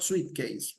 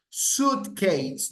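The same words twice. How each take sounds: First: Suitcase said "sweet-case"; mispronunciation. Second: SUITCASE said "soot-case", no w sound; correct pronunciation. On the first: Teacher shows students the mistake, suitcase as "sweet-case". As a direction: put a w glide in suitcase, "sweet". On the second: Teacher corrects students' pronunciation, careful "soot-case" for Suitcase. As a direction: say Suitcase with a plain "oo", higher pitch. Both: Shown as a demonstration. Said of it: "not suitcase".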